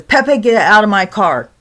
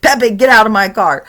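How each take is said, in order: First: Louder grandpa ordering ghost out; angry order. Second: Louder repeated command; angrier order. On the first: Grandpa ordering the ghost out of his car, loud. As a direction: command it firmly. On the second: Grandpa repeating his order to the ghost, louder. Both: Retold or imitated.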